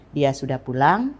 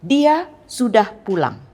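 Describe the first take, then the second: First: PULANG rising at the end; questioning intonation. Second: Slow, loud, high DIA, then PULANG falling firmly; forceful exclamation, stressed on DIA and PULANG; emphatic assertion. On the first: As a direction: ask it by lifting the end of PULANG. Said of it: "intonasi pertanyaan". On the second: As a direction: stretch and punch DIA, then land hard on PULANG. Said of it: "dan untuk penegasan". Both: Shown as a demonstration.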